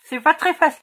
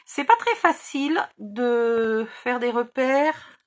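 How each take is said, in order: First: Talking around a pen cap held in the mouth. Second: Said in the usual way. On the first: Real, not acted. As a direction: mouth full with a marker cap, words muffled. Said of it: "parler avec le bouchon dans la bouche". (avec le bouchon du feutre dans la bouche) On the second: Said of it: "je vais essayer d'éviter de parler avec le bouchon".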